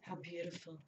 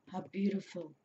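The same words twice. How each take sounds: First: Soft awe. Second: Said in the usual way. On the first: Real, not acted. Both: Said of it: "repeats the phrase, softer then normal".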